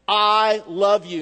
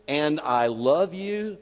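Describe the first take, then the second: First: I love you said slowly and louder, I stressed; emphatic. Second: Tender. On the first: Preacher stressing God's direct words, slow and firm. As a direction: press each word home. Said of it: "God says directly". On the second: Reading God's promise tenderly, slowly. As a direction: let the words land gently. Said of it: "Stop. Stop". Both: Shown as a demonstration.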